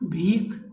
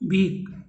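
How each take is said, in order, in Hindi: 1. अंतिम व्यंजन महाप्राण है। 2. अंतिम व्यंजन अल्पप्राण है।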